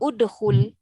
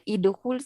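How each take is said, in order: First: The word begins with a u vowel. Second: The word begins with an i vowel. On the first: The speaker calls it right. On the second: The speaker calls it wrong. "Kalau kita kata idkhul salah lah"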